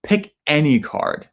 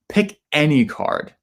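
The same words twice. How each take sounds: First: The word any carries strong stress. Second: The same.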